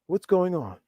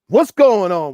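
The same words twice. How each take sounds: First: It is said in a quiet, gentle tone. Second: It is said in a harsh, confrontational tone. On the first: It shows comfort and care. The speaker calls it right. "just like quietly and and and just comfort, com- showing comfort" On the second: It comes across as an attack. The speaker calls it wrong. "Don't say it like that... it's going to come across in a uh, inflammatory way"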